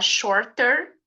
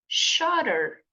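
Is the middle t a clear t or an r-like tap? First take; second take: clear t; r-like tap. First: The middle t is a clear t sound. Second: The middle t sounds like a quick r. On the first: "em vez de você falar shorter, que também tá certo" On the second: "esse T fica com o som de R"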